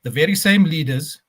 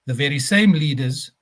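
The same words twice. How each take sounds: The two takes are said the same way.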